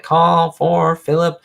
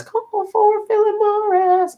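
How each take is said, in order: First: Long drawn-out, higher-pitched paging cry; slow sing-out imitation of a bellboy; bellboy's call. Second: Very high, slow, stretched-out commercial call; exaggerated falsetto paging call; Lucy. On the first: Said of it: "Bellboy guy. And he was like". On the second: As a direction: imitate a bellboy's cry in a squeaky high voice. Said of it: "Lucy does a T V commercial".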